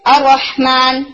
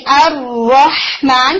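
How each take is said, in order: First: الرحمن said quickly with the doubled ر skipped; wrong reading. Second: الرحمن drawn out slowly with the doubled ر held; correct recitation. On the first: Teacher showing a common student mistake, quick plain reading. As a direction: rush الرحمن, dropping the shadda. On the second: Teacher demonstrating the right way to students, slow recitation. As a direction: recite الرحمن slowly, giving the shadda its full weight. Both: Shown as a demonstration. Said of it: "تشدید کو مکمل کرنے کے بجائے".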